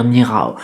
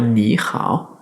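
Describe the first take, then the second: First: "ni hao" as one joined-up word; syllables run together. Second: "ni hao" with a clear gap between syllables; syllables separated. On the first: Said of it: "on va pas dire ni hao et tout coller". (« ni hao » tout collé, sans séparation) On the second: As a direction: say "ni", pause, then "hao". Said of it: "On va bien faire ni hao et séparer les deux éléments". (« ni hao » en séparant bien les deux syllabes) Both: Shown as a demonstration.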